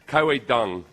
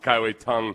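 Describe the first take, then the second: First: The last word begins with a soft D sound. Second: The last word begins with a T sound. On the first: "if you do a D, but instead of as a hard a hard duh, you kind of put the put the flat part of your tongue against your roof" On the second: "they've just started saying tongue"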